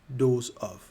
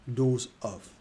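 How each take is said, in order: The two takes are said the same way.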